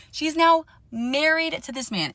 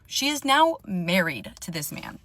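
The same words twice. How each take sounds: First: Higher and louder, stress on now; emphatic repeat. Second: Said in the usual way. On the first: Real, not acted. Telling viewers the friend married him, emphatic disbelief. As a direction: hit "now" hard in disbelief.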